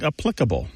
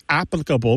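First: "applicable" stressed on its second syllable, ap-PLIC-able; "applicable" as uh-PLIK-uh-bul. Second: "applicable" stressed on its first syllable, AP-plicable; "applicable" as AP-lik-uh-bul; old first-syllable stress. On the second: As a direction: hit AP in "applicable". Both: Shown as a demonstration. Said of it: "becoming stressed on the second syllable".

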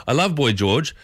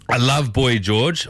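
First: Said in the usual way. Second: Reading a text out. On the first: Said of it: "I love Boy, 'cause I played Culture Club". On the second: Shown as a demonstration. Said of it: "What's this one say?".

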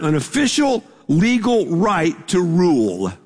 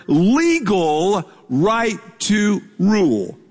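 First: Said in the usual way. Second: LEGAL stretched out slowly, then each word set apart; emphasized. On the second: Shown as a demonstration. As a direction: lean hard and slow on LEGAL, word by word. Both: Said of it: "let me emphasize this word".

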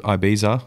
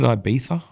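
First: Said in the usual way. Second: Ibiza said ee-BEE-tha with a lisped th; Spanish-style Ibiza. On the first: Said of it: "or is it Ibiza?". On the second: Shown as a demonstration. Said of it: "I have a lisp if I say it like that".

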